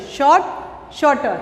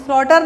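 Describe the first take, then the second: First: शॉर्ट, शॉर्टर with the R left silent. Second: शॉर्टर with the R sounded; R pronounced in शॉर्टर. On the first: Teacher modelling silent letters for pupils, R dropped in शॉर्ट, शॉर्टर. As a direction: drop the R sound in शॉर्ट, शॉर्टर. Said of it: "silence word, हमें शॉर्टर नहीं पढ़ते". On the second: Teacher showing pupils what not to read, R sounded in शॉर्टर. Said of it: "हमें शॉर्टर नहीं पढ़ते". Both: Shown as a demonstration.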